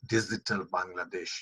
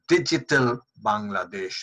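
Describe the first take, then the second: First: The g in digital sounds like z. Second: The g in digital sounds like j. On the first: The speaker calls it wrong. "not digital Bangladesh" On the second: The speaker calls it right. "it is digital Bangladesh"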